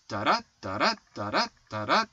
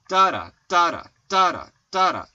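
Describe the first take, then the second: First: "da DA, da DA", second beat rising; iambic rhythm. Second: "DA da, DA da", first beat high and loud; trochaic rhythm. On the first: Husband contrasting iamb with trochee, iambic stress. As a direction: lift and stress the second "da" of each pair. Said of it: "Instead of the I am". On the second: Husband showing trochee rhythm to co-host, trochaic stress. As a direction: hit the first "da" of each pair, drop the second. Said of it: "the trochee has stressed, unstressed". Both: Shown as a demonstration.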